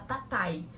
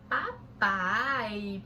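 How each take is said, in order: First: The word begins with a t sound. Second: The word begins with a p sound. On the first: This is how the young child says it. "ele fala tatai" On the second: This is the correct model given back to the child. "e você fala papai"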